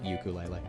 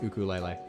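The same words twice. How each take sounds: First: The word begins with a 'yoo' sound. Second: The word begins with a plain 'oo' vowel. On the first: This is how non-Hawaiians usually say it. "whoever like aren't Hawaiians pronounce it ukulele" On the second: This is the original Hawaiian pronunciation. "It is technically pronounced ukulele"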